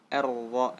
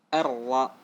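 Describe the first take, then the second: No difference in how they are said.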